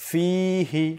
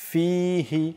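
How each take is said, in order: The two takes are said the same way.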